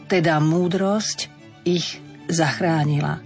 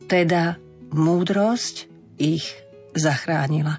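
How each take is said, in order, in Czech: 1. Fráze se čte normálním tempem. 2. Fráze se čte pomalu, se zpomalující intonací.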